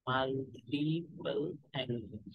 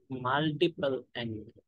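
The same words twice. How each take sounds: First: Multiple angle very slow and softer, falling; slow soft dictation. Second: Multiple angle stretched very slowly, level ending; slow dictation. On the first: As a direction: repeat multiple angle slowly and softly to close it. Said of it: "repeated softer for note-taking". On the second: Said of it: "slow dictation of the topic". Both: Shown as a demonstration.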